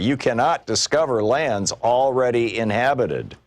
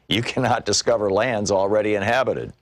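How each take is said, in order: First: It is said a little louder. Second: It is said quietly, almost to oneself.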